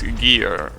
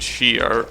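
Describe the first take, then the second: First: The word begins with a hard g sound. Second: The word begins with an sh sound. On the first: The speaker calls it right. "when in reality it's Gear" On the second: The speaker calls it wrong. "I'm pretty sure I'm saying Shear"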